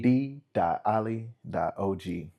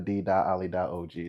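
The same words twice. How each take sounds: First: It is said more slowly. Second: It is said at normal speed.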